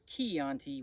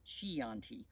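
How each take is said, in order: First: The word begins with a hard k sound. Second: The word begins with a soft ch sound. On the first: The speaker calls it right. "which is C H I" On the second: The speaker calls it wrong. "versus a uh, uh, Chianti"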